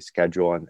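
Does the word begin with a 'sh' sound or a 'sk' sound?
sk. It is said in an American way. This is how Americans say it. "we say schedule"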